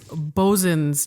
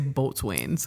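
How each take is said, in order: First: It is said as two short syllables, bosun. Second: It is said as spelled, boat-swains. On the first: The speaker calls it right. "it's bosun's chair" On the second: The speaker calls it wrong. "you're going to get laughed at if you say boatswains"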